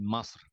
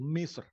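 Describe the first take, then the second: First: The vowel after the M is 'a'. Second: The vowel after the M is 'i'. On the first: This is the colloquial Egyptian form. "Kalau orang menggunakan bahasa amnya menjadi Masr" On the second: This is the standard literary form. "kalau yang bahasa baku standar itu Misr"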